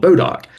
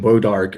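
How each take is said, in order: First: It ends in a clipped doc sound: bo-doc. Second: It begins with a w sound: wo-dark. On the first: This is the local North Mississippi form. "we in Mississippi, or at least in North Mississippi, always heard it called Bodoc" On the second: This is the older French-derived form. "that pronunciation"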